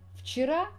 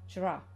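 First: All sounds of the word are pronounced. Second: The word is shortened, with sounds dropped.

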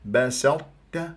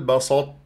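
First: The s is light and thin. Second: The s is heavy, like an emphatic s. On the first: The speaker calls it right. "هكذا" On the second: The speaker calls it wrong. "ما تقول بسطت، لا تفخمها تجعلها صاد"

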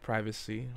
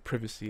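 First: It is said with an American accent. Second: It is said with a British accent.

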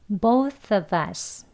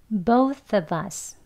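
The two takes are said the same way.

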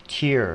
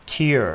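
No difference in how they are said.

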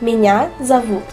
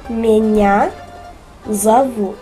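First: It is said at normal speed. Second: It is said slowly.

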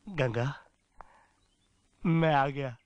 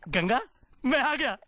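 First: It sounds pleading, like begging. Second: It sounds happy and full of excitement.

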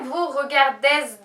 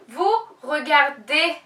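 First: The ending is not a plain e vowel. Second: The ending is a plain e vowel. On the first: The speaker calls it wrong. "Buradakinde vous regardez diye duymak istemiyorum" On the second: The speaker calls it right. "Vous regardez diye e gibi okumanız gerekiyor"

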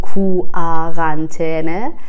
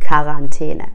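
First: It starts with a separate 'koo' syllable. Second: It starts directly without a separate 'koo' syllable. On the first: The speaker calls it wrong. "نمیگیم کو آرانتینه" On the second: The speaker calls it right. "میگیم کارانتینه"

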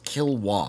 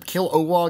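First: The middle syllable is swallowed. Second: The middle syllable is pronounced clearly. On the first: "also just Kilowog" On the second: "they call him Kil-O-Wog"

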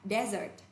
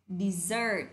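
First: The stress is on the first syllable. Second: The stress is on the second syllable. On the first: It is the noun meaning a dry sandy region. "danh từ này trọng âm thứ nhất ạ" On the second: It is the verb meaning to abandon or flee. "trọng âm thứ hai ạ"

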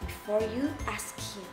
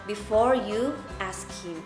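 First: The words are said in a quiet, low voice. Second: The words are said at normal speaking volume. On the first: "we're going to use a low voice" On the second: "we're going to use a normal voice"

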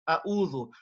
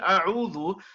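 First: The middle consonant is a glottal stop. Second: The middle consonant is a pharyngeal sound. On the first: The speaker calls it wrong. "we're actually reading both as Hamzas" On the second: The speaker calls it right. "the first one is a Hamza and the second letter is a Ayn"

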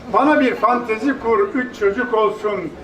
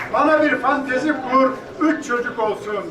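Both takes have the same delivery.

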